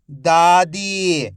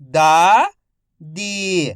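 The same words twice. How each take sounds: First: "दादी" joined as one word, long vowels; syllables blended. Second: "दादी" split into दा, pause, दी, each drawn out; syllable by syllable. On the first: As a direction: say "दादी" in one connected stretch. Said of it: "तो मिलके बन जाएगा". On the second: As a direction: sound out "दादी" slowly, दा rising, दी falling. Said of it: "एक एक अक्षर का उच्चारण". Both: Shown as a demonstration.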